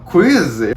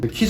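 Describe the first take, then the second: First: It is said with a rolled American-style pronunciation. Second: It is said with a flat Korean-style pronunciation. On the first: The listener finally understood it. The speaker calls it right. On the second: The listener could not understand it. The speaker calls it wrong.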